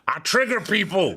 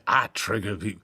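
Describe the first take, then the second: First: It is said noticeably louder. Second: It is said at a normal, quieter volume.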